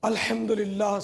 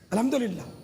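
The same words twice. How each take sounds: First: The phrase is said slowly and clearly separated. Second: The phrase is said quickly and run together. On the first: The speaker calls it right. "ये सब कुरानी अल्फाज हैं" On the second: The speaker calls it wrong. "मतलब बहुत जल्दी जल्दी बोलकर क्या क्या बोल देते हैं"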